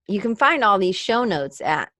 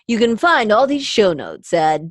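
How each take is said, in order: First: It is said in her normal voice. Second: It is said in a put-on commercial voice.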